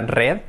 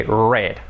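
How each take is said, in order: First: "red" with a trilled Spanish R; wrong Spanish R. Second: "read" as past tense, like "red", untrilled R; English R. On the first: Teacher warns learners off it, mispronunciation demo. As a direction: say "red" as a Spanish speaker would, rolling the R. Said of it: "Que no sea red". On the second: Teacher models the past tense for learners, English R demo. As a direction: hold a smooth English R, then short e in "read". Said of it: "ese sonido, ¿ok?". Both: Shown as a demonstration.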